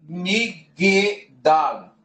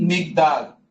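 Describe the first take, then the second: First: A vowel is sounded between g and d. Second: No vowel is sounded between g and d. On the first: The speaker calls it wrong. "e não Migdal" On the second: The speaker calls it right. "E sim Migdal. ... fica neutro devido à ausência de vogal"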